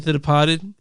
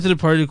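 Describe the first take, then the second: First: Put-on Departed said in the movie's accent. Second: Said in the usual way. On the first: Fan explains his way of saying the title, Departed in movie accent. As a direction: copy the film's accent on Departed. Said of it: "I call it that 'cause that's how they say it in the movie". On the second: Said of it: "That's how the accent. But I like".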